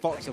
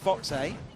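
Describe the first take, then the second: First: The name ends in a short 'uh' sound. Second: The name ends in a separate 'ay' sound. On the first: This is the speaker's habitual version. The speaker calls it wrong. "I've always said Foxer" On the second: This is the correct version of the name. The speaker calls it right. "but I know it's Fox A"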